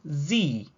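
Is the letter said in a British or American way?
American. The letter is said the American way.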